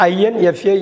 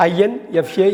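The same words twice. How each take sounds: The two takes are said the same way.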